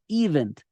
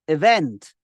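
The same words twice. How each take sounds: First: It is said with an Indian-style pronunciation. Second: It is said without the Indian-style pronunciation. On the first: The speaker calls it wrong. "It is not event. ... that's how Indians speak" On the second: The speaker calls it right. "It is event"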